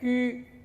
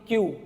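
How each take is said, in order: First: It has a rounded front vowel, French-style. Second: It sounds like the English letter 'queue'. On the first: "you have to make your lip round" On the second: "in English we pronounce completely Q"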